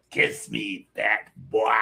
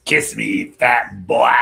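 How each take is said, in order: First: Lightly voiced creepy clown; a hint of the clown, less forceful; scary movie clown voice. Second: Loud, taunting clown voice; scary movie clown voice. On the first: Showing how the actor said it, light clown taunt. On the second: Acted. Quoting his favorite clown line, loud taunt. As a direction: hit the last word loud as a creepy clown. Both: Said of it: "I love the way he said that".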